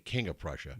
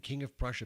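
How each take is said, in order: First: The name is said the local way. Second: The name is said the non-local way. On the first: The speaker calls it right. "we say King of Prussia" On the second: The speaker calls it wrong. "I'm saying it the wrong way"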